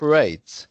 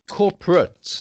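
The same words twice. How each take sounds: First: The last syllable sounds like 'eight'. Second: The last syllable sounds like 'ut'. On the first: The ending belongs to a verb. The speaker calls it wrong. "not ... When it's the verb, then it would be ate" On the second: The word is used as an adjective. The speaker calls it right. "when it's the adjective, it's corporate... ut at the end"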